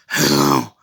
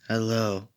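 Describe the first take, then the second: First: It is said in a gravelly Batman impression. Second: It is said in his normal voice.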